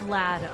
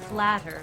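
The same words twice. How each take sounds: First: The final r sound is dropped. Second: The final r sound is pronounced.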